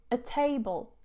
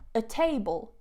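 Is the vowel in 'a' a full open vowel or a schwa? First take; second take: schwa; schwa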